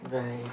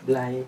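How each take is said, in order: First: The word is said with a clear r sound. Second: The word is said with an l sound. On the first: The speaker does not have a lisp. "Kan gua kan enggak cadel" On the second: Someone with a lisp says it. "Kan yang blay itu kan cadel"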